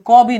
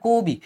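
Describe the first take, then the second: First: "ক বি" with an open aw in ক; wrong open vowel. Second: "কবি" with a rounded o, ko-bi; closed o vowel. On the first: Teacher showing students the wrong reading, open aw in "ক বি". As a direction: say "ক বি" with unrounded first vowel, like kaw-bi. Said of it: "তখন হয়ে গেছে কবি". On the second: Teacher showing students the right reading, "কবি" as ko-bi. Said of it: "তখন কিন্তু ক বি না". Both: Shown as a demonstration.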